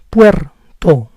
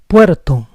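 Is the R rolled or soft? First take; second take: rolled; soft. First: The R is rolled. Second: The R is a soft tap. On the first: "With the rolling R" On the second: "With the soft R"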